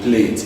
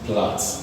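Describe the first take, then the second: First: The vowel is a long 'ay' sound. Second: The vowel is a short 'a' sound. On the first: The speaker calls it wrong. "most times you call option A plate" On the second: The speaker calls it right. "it's meant to be pronounced as flat"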